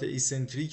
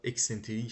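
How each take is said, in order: First: The word begins with an 'ee' sound. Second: The word begins with an 'ek' sound. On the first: The speaker calls it right. "بگین ایسنتریک" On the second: The speaker calls it wrong. "میگن غلطه"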